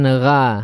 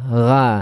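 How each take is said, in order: Both takes have the same delivery.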